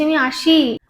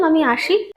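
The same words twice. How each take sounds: First: Firm stress on আসি; emphatic insistence. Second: Said in the usual way. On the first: Shown as a demonstration. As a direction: lean on আসি and stretch it. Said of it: "আমি জোর দিয়ে বলছি". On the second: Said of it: "যদি simple ভাবে বলতাম".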